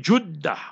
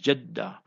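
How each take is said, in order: First: The first vowel is a u sound. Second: The first vowel is an e sound.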